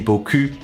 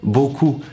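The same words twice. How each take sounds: First: The last vowel is a fronted French u sound. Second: The last vowel is a rounded back oo sound.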